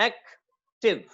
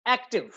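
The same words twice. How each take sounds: First: "active" broken slowly into two syllables, एक, टिव; split into syllables. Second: Said in the usual way. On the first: Shown as a demonstration. Teacher counting the syllables of "active" for students, slowly split. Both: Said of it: "दो syllables हैं".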